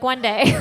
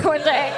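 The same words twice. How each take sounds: First: "One day" said wistfully, ending on a rise; a hopeful sigh of "One day"; dreamy hope. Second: "one day" repeated through a laugh. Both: Acted.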